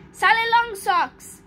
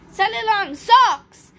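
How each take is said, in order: First: Said in the usual way. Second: Loud, higher exclamation of amusement, no real laugh; amused roar. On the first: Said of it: "wrong magic word. I said". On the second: A narrator's reading. Miss Fizz repeats Cosmo's wrong magic word, amused roar. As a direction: roar the silly words back, hammed-up. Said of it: "Miss Fizz roared with laughter".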